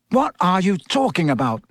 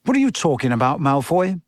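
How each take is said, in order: First: Higher-pitched, understated angry question. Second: Mildly rough challenge. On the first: Harry snaps back at Malfoy's taunts, mildly angry. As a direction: demand an answer with some anger. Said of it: "said Harry angrily". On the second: Ron confronts Malfoy, mildly rough. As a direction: challenge him a touch roughly. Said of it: "said Ron roughly". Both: A narrator's reading.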